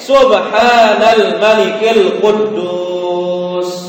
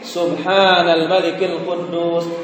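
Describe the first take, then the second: First: It is said in the loudest voice. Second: It is said a little louder.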